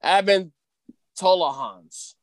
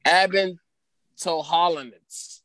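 First: Tolohans tried in three syllables, "TO-lo-hans"; retry the surname as a shorter Tolohans; second attempt at name. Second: Toholonets stumbled into as "to-HOL-o-nets"; mispronounced name. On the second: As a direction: sound out Toholonets with an extra syllable before the end. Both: Real, not acted. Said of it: "That's not right".

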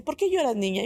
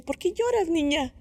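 First: Put-on only a touch higher, a lighter old-lady voice. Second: Put-on high old lady's voice asking gently; little old lady. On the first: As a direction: repeat the old woman's question, less put on. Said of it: "Y me dice". (una viejita apenas insinuada, un poco más aguda) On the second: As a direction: voice the old woman, pitched well up. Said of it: "una viejita ... me dice". (voz aguda de viejita que pregunta con cariño)

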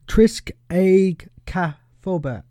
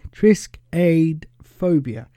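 First: "triskaidekaphobia" drawn out slowly, almost with a French lilt; near-French slip. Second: "Triskaidekaphobia" said slowly in plain English, TRIS-kai-deka-PHO-bia; careful English pronunciation. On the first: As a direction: stretch "triskaidekaphobia", nearly going French. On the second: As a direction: redo "Triskaidekaphobia" cleanly and slowly. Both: Shown as a demonstration. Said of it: "I nearly said that in a French accent".

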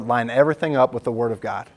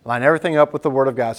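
First: Said in the usual way. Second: Fast, punchy restatement; preacher drilling the point into the church; quick emphatic repeat. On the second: Shown as a demonstration. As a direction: rattle it off again to drill it in.

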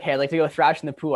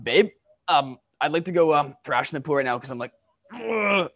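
First: Said in the usual way. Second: Fed-up, louder ask trailing into an ugh; husband venting to his wife, exasperated and louder; exasperated plea. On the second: Shown as a demonstration. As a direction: blurt it out, frustrated and a bit louder. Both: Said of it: "Are you, like, saying it like that".

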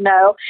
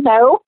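First: Said in the usual way. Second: Mock curt no; a pretend flat refusal, played for laughs; joking refusal. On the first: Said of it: "I did. I said". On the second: Speaker jokingly refuses the stranger's hug, mock curt. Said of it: "No, I didn't".

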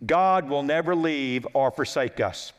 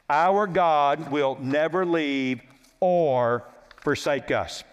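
First: Said in the usual way. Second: Slow, solemn repeat. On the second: Real, not acted. Preacher to congregation on God's promise, slow and solemn. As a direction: let the promise sink in, word by word.

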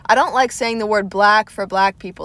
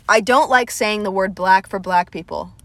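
First: Southern accent again, showing it off; said a second time, Southern accent on display. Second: Her own Southern accent on the line; lightly Southern drawled vowels. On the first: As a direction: lean a little into the Southern accent. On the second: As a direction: let the Southern accent come through plainly. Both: Shown as a demonstration. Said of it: "do you see my accent when I even say".

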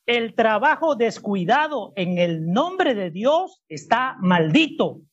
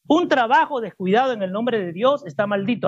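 First: Slow, deliberate scripture reading; lectura pausada. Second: Scripture read in one continuous run; read straight through. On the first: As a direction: read slowly, phrase by phrase. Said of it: "Pero leo mi versión". (leyendo despacio y con pausas) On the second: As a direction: read it fluently without pausing. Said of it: "vuelvo a leerlo de corrido". (lectura de corrido, sin pausas) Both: Shown as a demonstration.

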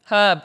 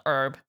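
First: Herb with the h sounded; louder HERB, breathy h up front; British pronunciation. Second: Herb with a silent h; low herb said as "urb"; American pronunciation. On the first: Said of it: "Not herb". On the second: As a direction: drop the h from herb. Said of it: "That's how Americans say it". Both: Shown as a demonstration.

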